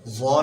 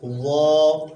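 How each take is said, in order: First: The letter is said with a whistling hiss. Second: The letter is said softly and heavily, without hiss. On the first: The speaker calls it wrong. "जौ नहीं पढ़ना है, यानी इसमें सीटी की आवाज़ निकल रही है।" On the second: The speaker calls it right. "बल्कि नरमी के साथ वो, मोटा भी हो और नरम भी हो"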